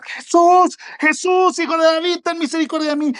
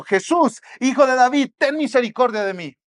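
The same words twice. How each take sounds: First: Much higher, louder pleading shout; desperate shout. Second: Higher, louder cry for mercy; retold cry for mercy. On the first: Retold or imitated. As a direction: cry out across the crowd for mercy. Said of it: "empieza ahí al lado del camino a gritar". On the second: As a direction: call out to Jesus, pleading. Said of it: "Porque gritó".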